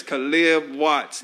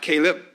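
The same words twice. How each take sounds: First: Caleb said kuh-LIB, stressed on the second syllable; slow "kuh-LIB" for Caleb, falling on Watts; correct name pronunciation. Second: Caleb as KAY-lup, first syllable stressed; wrong name pronunciation. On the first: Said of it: "All right, it's Caleb Watts". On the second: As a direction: say Caleb with a long "ay", lifting at the end. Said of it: "not Caleb". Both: Shown as a demonstration.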